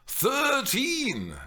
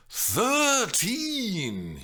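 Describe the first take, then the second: First: High, drawn-out disbelief; can't believe it; incredulous. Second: High, long, shocked objection; outraged at the age; appalled. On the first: Mimi echoing Juliet's age in disbelief, high. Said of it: "Mimi repeated incredulously". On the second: Mimi appalled that Juliet is thirteen, high and shocked. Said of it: "she objected, appalled". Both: Real, not acted.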